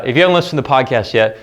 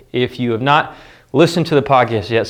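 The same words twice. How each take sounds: First: Said in the usual way. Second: Shallow breathing; winded, catching breath. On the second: Real, not acted. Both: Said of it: "sorry, I'm out of breath".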